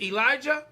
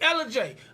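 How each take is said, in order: First: The name ends with a 'jah' sound. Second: The name ends with a 'jay' sound. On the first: The speaker calls it wrong. "did I pronounce that correctly?" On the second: The speaker calls it right. "it's Ella J"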